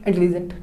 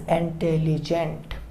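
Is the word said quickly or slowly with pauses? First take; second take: quickly; slowly. First: The word is rushed out quickly in one go. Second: The word is said slowly with small pauses. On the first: The speaker calls it wrong. "ऐसे बोलेंगे intelligent, नहीं समझ आया ना" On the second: The speaker calls it right. "इसीलिए हम रुक के बोलते हैं"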